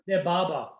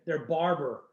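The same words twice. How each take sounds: First: It is said in an Australian accent. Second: It is said in an American accent.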